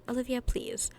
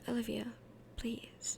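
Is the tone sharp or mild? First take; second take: sharp; mild. First: It is said with a sharp, attitude-filled tone. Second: It is said with a mild, toned-down tone.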